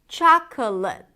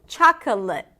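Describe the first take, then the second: No difference in how they are said.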